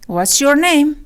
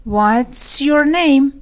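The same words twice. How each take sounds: First: Said in the usual way. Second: Drawn-out teaching repeat; slow and stretched. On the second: Shown as a demonstration. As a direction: stretch every word of "What's your name". Lesson repeats it slowly. (خیلی آهسته و کشیده)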